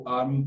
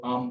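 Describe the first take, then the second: First: "आर्म" with the r sounded; American pronunciation. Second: "आर्म" as "aam", no r; British pronunciation. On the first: Teacher contrasting varieties, "आर्म" with an American r. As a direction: say "आर्म" American-style, r before the m. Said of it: "American English में उसे pronunciate किया जाता है". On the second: Teacher contrasting varieties, "आर्म" with the British silent r. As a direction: say "आर्म" British-style with long vowel, r silent. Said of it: "British English में इसको". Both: Shown as a demonstration.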